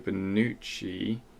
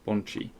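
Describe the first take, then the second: First: The name is said with three syllables. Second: The name is said with two syllables. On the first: The speaker calls it wrong. "It's not Bonucci, is it?" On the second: The speaker calls it right. "It's Bonchi"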